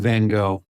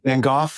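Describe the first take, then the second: First: The name is said the American way. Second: The name is said the British way. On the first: "we kind of Americanize everything" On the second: "Brits, of course, say Van Gogh"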